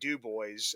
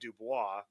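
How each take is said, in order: First: The name is said with English-style sounds. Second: The name is said with French-style sounds. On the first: This is how locals say it. The speaker calls it wrong. "up here in Pennsylvania we say" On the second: This is the original French form. The speaker calls it right. "it should be"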